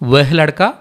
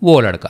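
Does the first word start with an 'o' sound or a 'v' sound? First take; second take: v sound; o sound. First: The first word begins with a 'v' sound. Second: The first word begins with an 'o' sound. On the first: "వెహ్ లడకా, ఓ లడకా రెండు ఒకటే" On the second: "ఓగా pronounce చేస్తారు"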